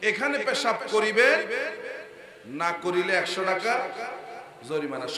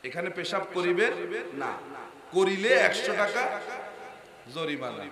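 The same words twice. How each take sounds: First: The pause comes before the word 'না'. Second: The pause comes after the word 'না'.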